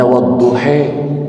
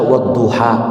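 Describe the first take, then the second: First: The word ends in a vowel leaning toward 'e'. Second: The word ends in an open 'a' vowel. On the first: "bacanya wadduhe. Ini namanya imalah" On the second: "mereka nggak bisa baca wadduha"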